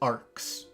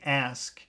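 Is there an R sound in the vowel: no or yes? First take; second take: yes; no. First: The vowel has an inserted R sound. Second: The vowel has no R sound. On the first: "he says arcs" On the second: "instead of saying ask"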